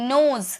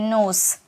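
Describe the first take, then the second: First: The word ends with a z sound. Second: The word ends with an s sound. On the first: The speaker calls it right. "नहीं नोज, ज का sound आएगा" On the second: The speaker calls it wrong. "बहुत सारे student इसे नोस बोलते हैं"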